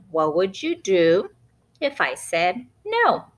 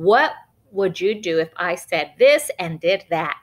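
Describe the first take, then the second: First: Benny's voice. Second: Said in the usual way. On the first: Acted. Narrator quoting Benny, lightly in a cheeky boy voice. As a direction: lightly act the child's question. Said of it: "Benny asking Mom the question". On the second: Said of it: "him visualizing and telling his mom".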